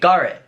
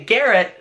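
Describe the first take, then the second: First: It is said in a Derry accent. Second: It is said in a higher, non-Derry accent. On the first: "Over here in Derry, we say Garrett" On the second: "my voice can't even go that high"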